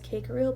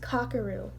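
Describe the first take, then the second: First: The first vowel sounds like 'ee'. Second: The first vowel sounds like 'ah'. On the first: The speaker calls it wrong. "I used to pronounce his name as Kikaru" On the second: The speaker calls it right. "I think that's the pronoun the right way to pronounce it"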